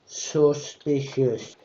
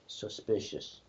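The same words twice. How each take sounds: First: Very slow suspicious; drawn out. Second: Muttered. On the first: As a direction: stretch every syllable. Drawn-out gag word. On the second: Quiet gag word. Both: Pretend.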